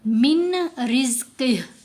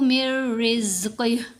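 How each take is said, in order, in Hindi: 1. n को r से पहले अलग से बोला जाता है। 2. n, अगली r ध्वनि में मिल जाता है।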